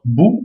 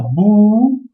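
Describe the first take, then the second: First: Said in the usual way. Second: "bou" with a long held vowel, pitched higher; prolonged ou. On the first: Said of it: "si vous voulez faire bou". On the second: Shown as a demonstration. Teacher showing the long ou, "bou" drawn out long. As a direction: stretch the ou of "bou" right out. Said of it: "pour la prolongation du ou".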